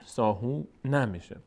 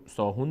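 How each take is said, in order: First: "ساهون" opened with an a after the N; continued ending. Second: "ساهون" closing on N with no vowel after; stopped ending. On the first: Teacher shows continuing past the word, open ending. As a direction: say "ساهون" as saahoona, ready to continue. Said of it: "اگر ادامه بدیم". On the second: Teacher shows stopping on the word, closed N. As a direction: end "ساهون" on a silent-vowel N. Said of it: "اگر بیستیم". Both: Shown as a demonstration.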